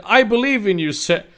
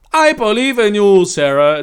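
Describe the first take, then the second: First: High, loud story dialogue; acted encouragement. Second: General's character voice. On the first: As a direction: read it as a raised-voice cheer. First take, before switching to character. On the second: Acted. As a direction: belt it out in the General's voice. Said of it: "Genital Lee said".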